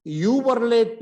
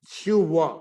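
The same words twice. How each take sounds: First: Higher, louder 'you were late' with R sounded; wrong full 'were'. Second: 'you were' as 'chu va', no R; reduced 'were'. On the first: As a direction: overdo the mistaken R in 'were'. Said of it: "नहीं". (गलत, र वाला उच्चारण) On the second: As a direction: say 'were' as a short R-less 'va'. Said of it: "क्या बोलेंगे". (बिना र वाला 'व') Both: Shown as a demonstration.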